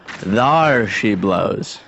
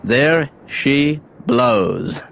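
First: "Thar" with a broad sailor's "ar", very slow; old sea-dog "Thar she blows", dragged slowly; pirate-style correction. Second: "There she blows" said very slowly with plain "there"; drawn-out, proud unveiling of "There she blows"; slow grand announcement. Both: Shown as a demonstration. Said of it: "Oh, wait a minute. I'm sorry".

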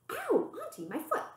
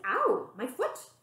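First: Sudden yelp. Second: Repeated cry. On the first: Auntie grips Mup's foot. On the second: Mup repeats her cry. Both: Acted.

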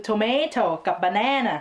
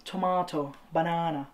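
First: "tomato" with MAY, "banana" with a short flat a; American-style "tomato" and "banana"; non-British vowels. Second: "tomato" and "banana" with long ah; British-style "tomato banana"; British accent. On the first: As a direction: say "tomato" as tuh-MAY-toh and "banana" as buh-NAN-uh. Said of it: "แต่คือคนอังกฤษเขาจะออกเสียงเป็น". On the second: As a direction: say tuh-MAH-toh, buh-NAH-nuh for "tomato banana". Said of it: "ก็ถ้าอยากออกเสียงเป็น British accent". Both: Shown as a demonstration.

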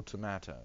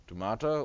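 First: "tomato" said tuh-MAY-toh; long ay in the middle of "tomato"; American pronunciation. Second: "Tomato" said tuh-MAH-toh; long ah in the middle of "Tomato"; British pronunciation. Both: Shown as a demonstration. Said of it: "Tomato or tomato?".

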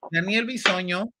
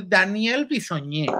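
First: Said in the usual way. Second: "Bisoñé" ending in a stressed E; jokey altered surname. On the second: Real, not acted. Host introducing gossip about Daniel, playfully ending "Bisoñé" on a stressed E. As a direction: stress the last syllable of "Bisoñé". Joke name, then the real one.

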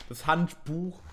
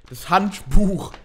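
First: Handbuch with the weight on Buch, rising at the end; stress on Buch. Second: Das Handbuch said loud and slow, leaning on Hand; drawn-out, louder das Handbuch; stress test. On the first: Unboxer corrects how Handbuch is stressed: weight on Buch. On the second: Unboxer tries out the word Handbuch, loud and slow. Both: Shown as a demonstration. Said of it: "Betonung auf Buch".

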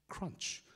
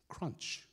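Both takes have the same delivery.

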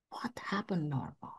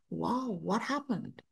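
First: Breathless unvoiced whisper. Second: Slow, soft, stunned murmur; hushed wonder. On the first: Asking herself what changed, in a stunned whisper. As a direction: barely breathe the words to yourself. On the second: Retold or imitated. Speaking to herself, awestruck at the change, hushed and slow. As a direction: drop the voice in amazement.

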